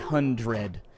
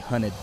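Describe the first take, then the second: First: The word sounds like 'hundred', standard style. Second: The word sounds like 'hunted', Bay Area style. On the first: This is not how locals say it. The speaker calls it wrong. "You don't say hundred" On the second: This is how locals say it. The speaker calls it right. "That's how you say hundred in the Bay Area. You say hunted"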